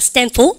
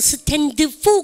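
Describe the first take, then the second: First: The final d of stand is dropped. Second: The final d of stand is clearly pronounced. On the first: The speaker calls it right. "드 발음 먹으십시오" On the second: The speaker calls it wrong. "근데 아무로 stand for 그러면 안 돼요"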